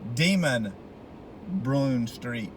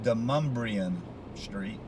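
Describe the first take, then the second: First: The name sounds like 'Demon Brune'. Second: The name sounds like 'Demumbrian'. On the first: The speaker calls it wrong. "you would think it would be Demon Brune Street" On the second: The speaker calls it right. "but it's pronounced Demumbrian Street"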